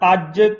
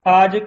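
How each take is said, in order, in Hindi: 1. j ध्वनि को रोककर दोहरा बोला जाता है। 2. j ध्वनि छोटी और एकल है। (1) "ਉਚਾਰਨ ਅਧਿਕ ਸਹਿਤ ਅੱਜ ਕਰਨਾ ਹੈ" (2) "ਅਧਿਕ ਤੋਂ ਬਿਨਾਂ ਸਧਾਰਨ ਰੂਪ ਵਿੱਚ ਉਚਾਰਨ ਕਰਨਾ ਹੈ"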